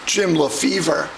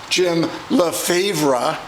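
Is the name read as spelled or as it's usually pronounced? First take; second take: usual; as spelled. First: The name is said the usual spoken way. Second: The name is read the way it is spelled. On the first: "as they usually pronounced it" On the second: "strangely spelled names"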